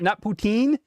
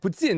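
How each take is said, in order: First: The last syllable is a long 'teen'. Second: The last syllable is a short 'tin'. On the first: The speaker calls it wrong. "not, not poutine. It's not poutine" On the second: The speaker calls it right. "Tin. T I N"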